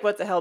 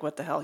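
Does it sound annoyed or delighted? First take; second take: delighted; annoyed. First: It sounds delighted and amazed. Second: It sounds annoyed and confused.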